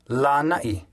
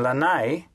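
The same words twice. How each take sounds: First: It is said with a glottal stop. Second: It is said without a glottal stop. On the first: The speaker calls it right. "should be pronounced" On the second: The speaker calls it wrong. "often mispronounced as"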